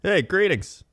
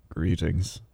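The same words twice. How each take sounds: First: Much higher, bright "Hey, greetings"; cheery greeting. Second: Lower, softer, flat "Greetings"; glum greeting. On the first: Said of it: "you could be like". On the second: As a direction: greet flatly, with no interest. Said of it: "Or you could be like". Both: Shown as a demonstration.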